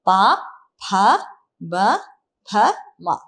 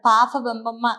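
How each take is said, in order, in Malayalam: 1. ഓരോ അക്ഷരവും വെവ്വേറെയും വ്യക്തമായും പറയുന്നു. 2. അക്ഷരങ്ങൾ ഒന്നിച്ചു ചേർന്നാണ്, കൂടെ മൂക്കിലെ ശബ്ദങ്ങളും ചേരുന്നു.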